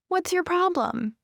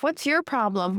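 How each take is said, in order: First: It is said in a mild, puzzled tone. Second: It is said in a rude, aggressive tone. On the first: The speaker wonders why the listener did that. "sometimes we just say this in a way like, oh, like, why would you do that?" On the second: The listener is behaving badly or rudely. "people will say this in a rude way"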